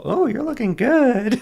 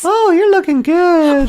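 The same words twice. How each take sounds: First: High falsetto imitation of wife; squeaky high mock female voice; imitating partner's voice. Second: High laughing falsetto of wife; shrill mock girly voice while laughing; falsetto imitation. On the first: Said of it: "Is that my voice?". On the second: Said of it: "that's what I sound like to you".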